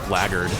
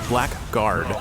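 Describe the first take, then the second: First: It is reduced to two quick syllables, 'blaggard'. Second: Both parts are said fully, like 'black guard'. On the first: "it's pronounced blackguard by a lot of people" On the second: "Like it's blackguard"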